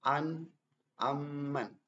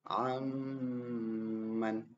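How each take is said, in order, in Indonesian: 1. Bunyi sengau dipotong pendek dan terburu-buru. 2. Bunyi sengau ditahan selama dua ketukan. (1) "itu terlalu cepat ya" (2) "Harus ditahan dulu"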